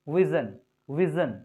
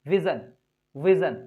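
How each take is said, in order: Both takes have the same delivery.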